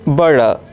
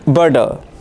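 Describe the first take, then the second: First: It has a soft American d-like t. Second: The same.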